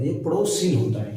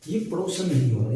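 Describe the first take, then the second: First: पड़ोसिन with a clear -सिन ending; right form. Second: पड़ोसन said with a plain -सन ending as the mistake; wrong form. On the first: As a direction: correct it to पड़ोसिन, stressing the सि. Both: Shown as a demonstration.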